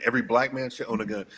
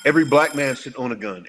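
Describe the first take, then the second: First: Quick restatement. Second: Every punched loud, falling firmly to the end; firm declaration. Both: Real, not acted. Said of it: "You saying everybody should own one".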